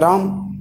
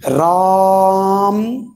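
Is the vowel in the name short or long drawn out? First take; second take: short; long. First: The name is said short, in a normal way. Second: The vowel is drawn out long, as if calling.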